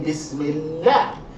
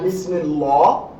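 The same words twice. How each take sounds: First: The l is light, sounding like la. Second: The l is heavy, sounding like law. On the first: The speaker calls it right. "we say Bismillah" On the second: The speaker calls it wrong. "not Bismillah"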